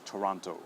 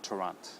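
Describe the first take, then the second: First: "Toronto" with the full o sounded at the end; final O pronounced. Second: "Torrent" as Toronto stopped at the t; final O cut. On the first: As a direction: finish Toronto on a clear oh. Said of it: "we do pronounce it". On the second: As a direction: drop the last o of Toronto, ending on t. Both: Shown as a demonstration.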